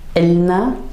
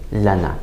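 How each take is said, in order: First: It starts with a glottal stop before il. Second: It starts with plain la and no glottal stop.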